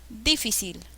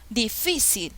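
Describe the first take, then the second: First: The stress is on the first syllable. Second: The stress is on the middle syllable. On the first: The speaker calls it wrong. "no, no se pronuncia difícil" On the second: The speaker calls it right. "Ah, esto suena mejor"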